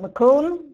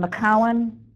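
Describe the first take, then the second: First: The second syllable sounds like 'coon'. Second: The second syllable sounds like 'cow'. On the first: The speaker is not from upstate New York. The speaker calls it wrong. "Don't pronounce it McCoon" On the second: The speaker is from upstate New York. The speaker calls it right. "instead of McCowan"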